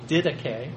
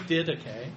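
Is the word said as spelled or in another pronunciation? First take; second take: another pronunciation; another pronunciation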